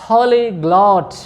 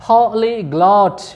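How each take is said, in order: The two takes are said the same way.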